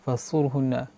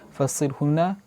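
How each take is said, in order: First: The vowel after the s is u. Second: The vowel after the s is i. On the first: "bidhammis sad" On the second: "bikasri sad"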